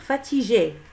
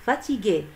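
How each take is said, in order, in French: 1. Le g est doux, comme le 's' dans 'measure'. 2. Le g est dur, comme dans 'go'. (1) "Si on supprime ce U, on va lire" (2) "on a ajouté ici un U pour lire le son pour prononcer G"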